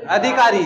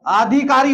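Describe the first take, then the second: First: "अधिकारी" with short a, a-dhikaari, falling; correct pronunciation. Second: "अधिकारी" with long opening aa, aa-dhikaari; wrong pronunciation. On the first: Teacher answers with corrected "अधिकारी", short first vowel. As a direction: open "अधिकारी" on a brief uh. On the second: Teacher asks if such a word exists, "अधिकारी" opening on long aa. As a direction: stretch the first vowel of "अधिकारी". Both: Shown as a demonstration. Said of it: "नहीं होता, क्या होता है".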